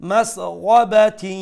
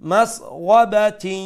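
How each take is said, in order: Both takes have the same delivery.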